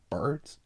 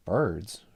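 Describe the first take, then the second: First: Rising indignant question; incredulous. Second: Flat offended repeat; insulted. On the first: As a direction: echo it in disbelief. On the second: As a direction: take offense. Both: Acted. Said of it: "highly insulted".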